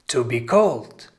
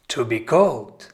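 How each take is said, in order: Both takes have the same delivery.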